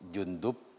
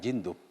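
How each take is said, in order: First: The first vowel is an u sound. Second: The first vowel is an i sound. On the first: The speaker calls it right. "dibaca dhammah" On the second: The speaker calls it wrong. "bukan Jindub"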